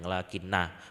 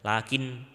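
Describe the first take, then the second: First: The word ends with a long drawn-out 'a'. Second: The word ends on 'n' with no final vowel. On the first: The speaker calls it right. "diwaca panjang lakinna" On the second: The speaker calls it wrong. "mboten lakin"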